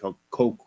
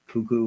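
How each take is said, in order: First: It is said with an oh vowel, like coconut. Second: It is said with an oo vowel, like cuckoo. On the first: "like cocoa" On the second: "Was I saying cuckoo?"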